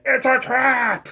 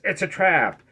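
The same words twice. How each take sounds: First: It is said forcefully, like an exclamation. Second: It is said flatly, without emphasis.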